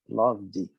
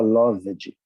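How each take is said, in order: First: The v goes straight into the final d. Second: A vowel is sounded before the final d. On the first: The speaker calls it right. "Já pula direto pro D, porque o E não é pronunciado" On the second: The speaker calls it wrong. "Ele fala loved, e não é"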